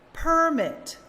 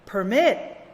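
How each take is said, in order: First: The stress is on the first syllable. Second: The stress is on the second syllable. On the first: It is used as a noun. "read the nouns with the stress on the first syllable" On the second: It is used as a verb. "the opposite"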